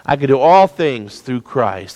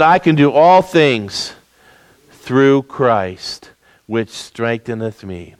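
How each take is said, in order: First: Said in the usual way. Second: Read very slowly. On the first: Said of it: "let's look after the word Christ". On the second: Shown as a demonstration. Preacher reading the verse slowly with his congregation, slow and fading. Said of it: "read that very slowly with me".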